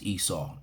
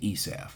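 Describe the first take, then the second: First: The name is pronounced the English way. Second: The name is pronounced the rabbinic way. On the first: "in English, it's pronounced Esau" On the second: "the rabbis say Esav"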